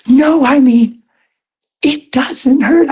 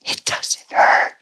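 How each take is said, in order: First: Higher and louder, insisting; insistent exclaim. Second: Retold in an awed whisper; hushed whisper. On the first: Retold or imitated. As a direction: push the words up, amazed and insistent. Woman insisting, retold. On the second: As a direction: breathe it out softly, amazed. Woman's retold words after healing.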